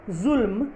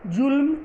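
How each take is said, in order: First: जुल्म starting on a buzzing z; pronounced with nukta. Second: जुल्म starting on a hard j; wrong pronunciation. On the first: Teacher reads her word list, जुल्म said with z. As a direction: say जुल्म as zulm. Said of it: "ये dot हटा के". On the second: Teacher shows the dotless misreading, जुल्म said with j. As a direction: say जुल्म with j, not z. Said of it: "जो गलत होगा". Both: Shown as a demonstration.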